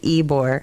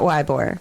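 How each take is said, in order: First: The first syllable begins with an 'ee' sound. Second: The first syllable begins with an 'eye' sound. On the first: The speaker calls it right. "It is Ebor" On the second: The speaker calls it wrong. "Not Ybor"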